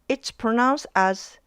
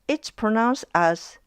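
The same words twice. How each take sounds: Both takes have the same delivery.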